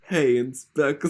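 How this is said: It is said in a Brooklyn accent.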